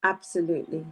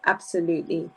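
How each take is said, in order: Both takes have the same delivery.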